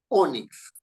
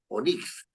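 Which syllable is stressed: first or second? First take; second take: first; second. First: The stress is on the first syllable. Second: The stress is on the second syllable. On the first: The speaker calls it right. "sino dice Onix, Onix, en la O" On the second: The speaker calls it wrong. "uno no dice Onix"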